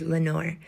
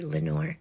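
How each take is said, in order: First: Softer murmured Lenore like a faint echo. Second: Softer, hushed Lenore; whispered name. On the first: Echo answering the narrator, faint murmur. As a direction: let Lenore come back as a faint echo. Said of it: "an echo murmured back". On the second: Narrator whispering Lenore into the darkness, hushed. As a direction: breathe the name Lenore softly. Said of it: "the whispered word". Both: A narrator's reading.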